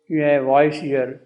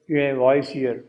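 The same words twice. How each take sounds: The two takes are said the same way.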